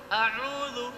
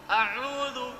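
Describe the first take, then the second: Both takes have the same delivery.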